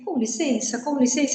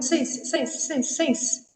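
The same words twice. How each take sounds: First: "Com licença" softly, with all syllables in place; full pronunciation. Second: "Sense" alone, soft, higher and rapidly repeated; swallowed "com licença". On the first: Passenger pushing through a crowd too correctly, "Com licença" in full. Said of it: "Você não vai falar assim". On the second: Passengers pushing through the metro crowd, swallowed soft "Sense". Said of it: "você vai falando". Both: Shown as a demonstration.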